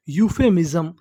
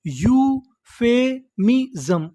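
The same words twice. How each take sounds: First: Said in the usual way. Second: "euphemism" slowly, with gaps between syllables; broken into syllables. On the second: Shown as a demonstration. Teacher showing learners the full word, syllable by syllable. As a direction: sound out "euphemism" piece by piece. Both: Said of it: "टुकड़ों में तोड़-तोड़ के पढ़ना है".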